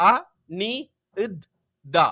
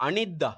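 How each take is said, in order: First: அ, நி, இத், தா with a pause after each; syllable by syllable. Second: Said in the usual way. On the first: Shown as a demonstration. Teacher showing pupils how it is pronounced, அ நி இத் தா in separate beats. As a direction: sound out Anitha piece by piece. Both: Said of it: "அப்ப உச்சரிக்கிறது".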